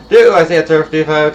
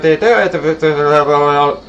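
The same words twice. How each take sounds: First: Said in the usual way. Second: Mock auctioneer rattle. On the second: Shown as a demonstration. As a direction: try a fast auctioneer call. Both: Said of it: "my second auctioneer voice isn't working".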